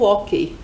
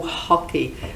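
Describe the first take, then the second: First: It is said with a Portuguese pronunciation. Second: It is said with an English pronunciation.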